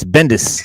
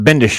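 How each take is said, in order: First: The name ends with a plain 's' sound. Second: The name ends with an 'sh' sound. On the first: The speaker calls it right. "it's Bendis" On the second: The speaker calls it wrong. "It's not Bendish"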